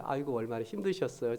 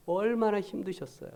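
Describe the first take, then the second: First: Softer, gentle sympathy with 아이고; tender 아이고 얼마나 힘드셨어요; sympathetic. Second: Said in the usual way. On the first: Retold or imitated. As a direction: comfort an elderly church member softly. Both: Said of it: "제가 그 표현을 그렇게 제가 사-, 사용했어요".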